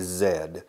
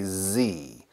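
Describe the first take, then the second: First: The letter is said as zed, British style. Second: The letter is said as zee, American style.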